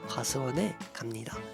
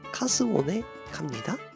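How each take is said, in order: First: It is said with a native Korean accent. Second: It is said with a Japanese accent.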